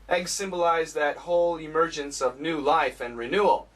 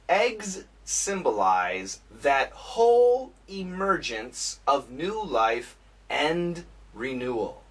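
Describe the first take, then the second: First: It is read at natural speed. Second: It is read at a slow pace. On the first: "and then normal speed"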